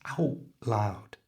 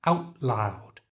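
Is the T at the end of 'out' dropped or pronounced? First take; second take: dropped; dropped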